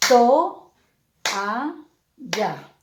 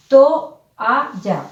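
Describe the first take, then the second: First: "To, a, ya" with a clear pause after each syllable; split into syllables. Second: Said in the usual way. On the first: Shown as a demonstration. Teacher showing students the syllables, each one spoken apart. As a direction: say "toalla" one syllable at a time, To, a, ya. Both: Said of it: "¿cómo quedaría la pronunciación?".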